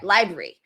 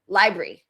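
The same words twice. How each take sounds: First: A sound is dropped, so the word is shorter. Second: Every syllable of the word is clearly pronounced. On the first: The speaker calls it right. "it sounds like that" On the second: The speaker calls it wrong. "I didn't say library"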